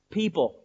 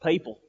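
First: Said in the usual way. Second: "People" with the first vowel like "pay"; native pronunciation. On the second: Real, not acted. Preacher slips into his natural speech, "People" said as PAY-pul. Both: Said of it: "That's my nature coming out in me".

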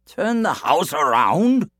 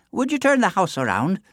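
First: Slow, louder puzzled echo; baffled question. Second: Said in the usual way. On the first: A narrator's reading. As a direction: repeat it in disbelief. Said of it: "said Cuchulainn". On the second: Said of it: "she smiled".

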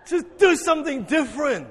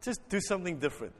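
First: High, raised exhortation; punchy call to the congregation; emphatic urging. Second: Soft, quick coaxing; quiet prompt. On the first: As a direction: urge them with a big lift in pitch. Repeats request loudly after the fright. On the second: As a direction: ask it softly and quickly. First, low take of the request. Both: Real, not acted.

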